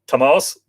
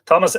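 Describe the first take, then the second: First: "Thomas" said the Irish way, stress on the second syllable; corrected name pronunciation. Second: Said in the usual way. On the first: Real, not acted. Host correcting a viewer's name, "Thomas" pronounced as Irish Tomás. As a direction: correct yourself to "Thomas" as Tomás, toh-MAWSS. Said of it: "pardon me". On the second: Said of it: "Sorry, Thomas".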